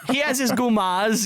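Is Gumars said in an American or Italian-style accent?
Italian. Gumars is said in an Italian-style accent. "The way you're supposed to say it?"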